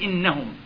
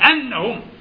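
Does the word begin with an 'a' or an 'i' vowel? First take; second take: i; a. First: The word begins with an 'i' vowel. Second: The word begins with an 'a' vowel. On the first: It states what was decreed against them. The speaker calls it wrong. "ما كسرش الهمزة" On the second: It gives the reason for what was decreed. The speaker calls it right. "فأن هذه هنا بالفتح بتكون للتعليل"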